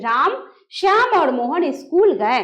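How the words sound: There is a short pause after the first name. The speaker calls it right. "हम जब बोलेंगे तो हमको रुकना पड़ेगा। कैसे?"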